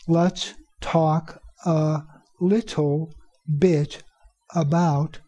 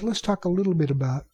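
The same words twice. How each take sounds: First: Each word is slow and fully enunciated. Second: The words run together quickly and reduced. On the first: The speaker calls it wrong. "the teacher who speaks too slowly and who over-enunciates will say" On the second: The speaker calls it right. "But you notice when I said it, I said"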